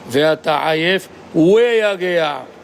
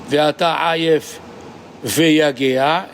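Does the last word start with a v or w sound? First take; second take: w sound; v sound. First: The last word starts with a w sound. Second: The last word starts with a v sound. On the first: This is the second reading, done for the alternate tradition. "et la deuxième fois" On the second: This is the normal reading as it was learned. "La première fois, on lit"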